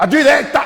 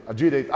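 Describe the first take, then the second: First: Exasperated full-volume shout, much higher; shouting GPS voice. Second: Said in the usual way. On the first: Retold or imitated. Ignored GPS voice finally shouting the turn. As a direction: yell the direction like a fed-up navigator. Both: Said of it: "desligou a voz do G P S".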